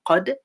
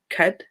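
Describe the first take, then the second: First: The first consonant is heavy and deep. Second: The first consonant is light like English k. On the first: The speaker calls it right. "This is a heavy letter. So say قد" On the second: The speaker calls it wrong. "Don't say kad"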